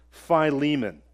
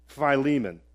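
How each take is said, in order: Both takes have the same delivery.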